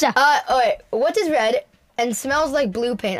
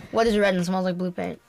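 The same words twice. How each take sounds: First: Put-on amateur Aussie accent; Australian accent. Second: Said in the usual way. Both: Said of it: "I'm out of my accent now".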